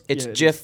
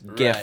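First: The word begins with a soft J sound. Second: The word begins with a hard G sound. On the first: "GIF with a J" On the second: "GIF with a G"

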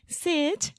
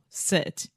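First: It is said in a cute baby voice. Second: It is said in a normal adult voice. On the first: The speaker calls it wrong. "he's like" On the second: The speaker calls it right. "instead of saying"

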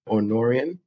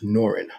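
First: The name is said with three syllables. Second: The name is said with two syllables. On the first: The speaker calls it wrong. "some people might call it Norian" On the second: The speaker calls it right. "But it is pronounced Norin. the Y is silent"

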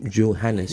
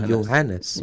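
First: The name begins with a hard 'j' sound. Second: The name begins with a soft 'y' sound. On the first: The speaker calls it wrong. "so you don't say Johannes" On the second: The speaker calls it right. "the letter J in German is pronounced Ja. ... you say Johannes"

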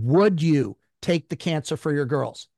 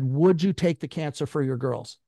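First: It is said in a defiant, authoritative tone. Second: It is said in a mild, plain tone.

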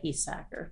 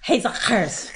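First: The name is said with an American pronunciation. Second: The name is said with a Dutch pronunciation. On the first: This is the usual local form of the name. "around these parts, we just say Hiesacker" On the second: The speaker knows the family's original name well. "the Dutch pronunciation is Hiesackers"

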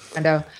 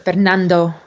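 First: The name is said with an American accent. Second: The name is said with a Spanish accent.

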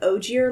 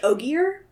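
First: It sounds like the letters O G plus ear. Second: It does not sound like O G plus ear. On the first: Others in the group say it this way. "like original gangster ear" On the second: The speaker believed it was said this way. "I thought it was Ogier"

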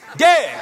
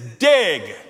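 First: The word is yelled loudly. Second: The word is said at normal volume.

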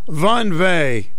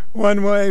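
First: It is said in a heavy German accent. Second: It is said in a plain unaccented voice.

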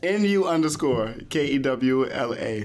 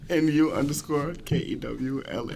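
First: It is said loudly and forcefully. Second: It is said at a quiet, low volume. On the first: The speaker calls it right. "say it with your chest" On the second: The speaker calls it wrong. "Can you say that a little louder?"

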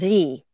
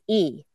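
First: The name starts with an R sound. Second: The name starts with a plain vowel. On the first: This is the rare form of the surname. "some names are actually Ri" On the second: This is the common form of the surname. "most people who have the Lee surname, it's E"

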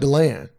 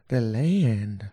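First: It is said flat with no extra lift. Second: It is said with a lively, tuneful lift.

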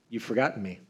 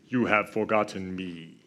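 First: It is said in the speaker's normal voice. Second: It is said in a deep Darth Vader-like voice.

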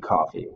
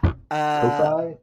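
First: It is pronounced like the drink coffee. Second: It is pronounced to rhyme with Wi-Fi. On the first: "It might be coffee" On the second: "Like Wi-Fi"

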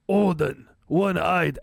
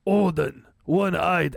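First: It is read in a put-on Viking voice. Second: It is read in a put-on Viking voice.

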